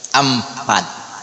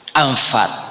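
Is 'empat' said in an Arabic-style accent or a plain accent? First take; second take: plain; Arabic. First: It is said with an 'e' and a 'p'. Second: It is said with an 'a' and an 'f'.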